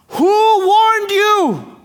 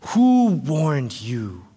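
First: Very high, loud, drawn-out cry; outraged prophet's shouted question; upset shout. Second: Slow, low, weighty question; grave prophet's challenge; John the Baptist questioning. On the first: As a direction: bellow an indignant challenge, stretching the words. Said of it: "So John is upset". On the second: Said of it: "That is his question". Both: Acted.

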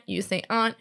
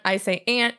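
First: "aunt" said as "ahnt"; broad open AH vowel in "aunt". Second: "aunt" said as "ant"; short flat-A vowel in "aunt". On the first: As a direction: rhyme "aunt" with "font". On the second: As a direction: say "aunt" just like the insect "ant". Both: Shown as a demonstration.

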